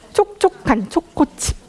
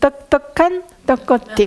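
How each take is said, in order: First: The 'ch' sounds are crisp and clear. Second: The 'ch' sounds come out lisped and blurred. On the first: The speaker calls it right. "이게 정확한 치읓 발음인 거죠" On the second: The speaker calls it wrong. "뻔데기 발음"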